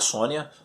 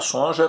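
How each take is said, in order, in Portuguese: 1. A consoante do meio é um som de 'ni'. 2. A consoante do meio é um som de 'j'. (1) "que na verdade é a Sônia" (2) "eu sempre pronunciei Sonja, porque estava escrito Sonja"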